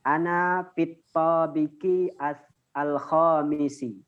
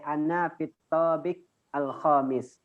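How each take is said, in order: First: The final short vowels are pronounced. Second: The final short vowels are dropped. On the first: This is the full form as it is written. "kalau dalam penulisannya" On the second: This is an acceptable spoken form. "Kalau pengucapannya boleh"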